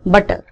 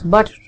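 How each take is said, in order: First: The middle consonant is a hard t sound. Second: The middle consonant is a soft d sound. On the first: The speaker calls it wrong. "अगर हम इसको Indian उसमें बोलें it is बटर" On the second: The speaker calls it right. "it's a combination of T and D, softer D"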